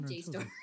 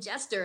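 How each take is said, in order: First: It begins with the letter name J. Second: It sounds like the word jester. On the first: The speaker calls it right. "you have Jstor" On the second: The speaker calls it wrong. "You were saying Jester"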